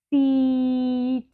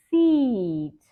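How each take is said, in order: First: Drawn out slowly. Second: Quick and short; fast. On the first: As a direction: stretch Seat out long. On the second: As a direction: say Seat briskly. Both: Shown as a demonstration. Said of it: "slow and then fast".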